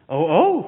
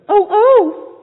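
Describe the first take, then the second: First: It is said in the reader's natural voice. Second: It is said in a put-on mother bird voice.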